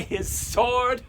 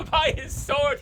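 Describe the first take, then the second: First: Said in the usual way. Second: Repeating it through laughter, higher; laughing. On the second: Real, not acted. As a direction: chuckle the words out, amused.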